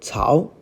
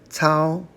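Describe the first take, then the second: First: The syllable rises from mid to high. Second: The syllable stays high and level. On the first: It means trough or groove. "This is second tone" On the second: It means to operate or to grasp. "to operate. First tone"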